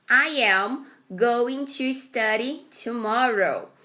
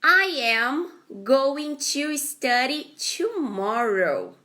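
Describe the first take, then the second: First: Said in the usual way. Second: Slow, clear model reading; careful teacher read-aloud; slow model sentence. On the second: Shown as a demonstration. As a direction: read it slowly for students. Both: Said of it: "first sentence".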